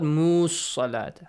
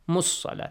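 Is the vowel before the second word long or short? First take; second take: long; short. First: The vowel before the second word is held long. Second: The vowel before the second word is kept short. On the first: The speaker calls it wrong. "not this long sound" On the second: The speaker calls it right.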